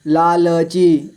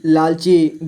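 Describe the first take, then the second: First: लालची slowly as ला, ल, ची; letter by letter. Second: Said in the usual way. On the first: Shown as a demonstration. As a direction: sound the middle ल of लालची fully. (लालची को तोड़कर: ला, ल, ची) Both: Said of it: "थोड़ा फास्ट पढ़ेंगे".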